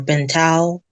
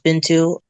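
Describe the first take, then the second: First: The name ends with an 'ow' sound. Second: The name ends with an 'oo' sound. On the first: The speaker calls it wrong. "or Bintao" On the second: The speaker calls it right. "my actual name is pronounced Bintou"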